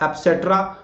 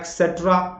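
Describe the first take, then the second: First: A p sound follows the first vowel. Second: A k sound follows the first vowel. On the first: "या एप्सेट्रा" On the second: "इसमें क या प को उच्चारण कर देते हैं एक्सेट्रा"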